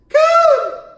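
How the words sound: It is said in a very high-pitched voice.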